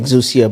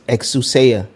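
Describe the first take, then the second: First: The name is said in a simplified, easier form. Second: The name is said in its fuller, harder form. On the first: This is the everyday way the speaker says the name. "I pronounce it Exousia" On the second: This is the original way the name is meant to be said. "the correct pronunciation is Exousia, which is a little bit too hard for people to say"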